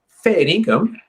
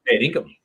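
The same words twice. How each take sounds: First: It is said as a doubtful, questioning query. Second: It is said as a firm, agreeing confirmation. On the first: The speaker is asking whether it is really true. "I'm asking you, yeah, are you for real? Is that right?" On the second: The speaker is confirming that it is exactly right. "same word, different inflection to say, yeah, that's exactly right"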